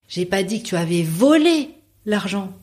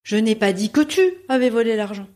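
First: The stress is on the word volé. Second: The stress is on the word tu.

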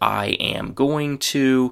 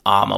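First: Every word is said fully and separately. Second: The whole phrase collapses into two short syllables. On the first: "the very common phrase" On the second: "which is really the most reduced way of saying that you could possibly still be understood"

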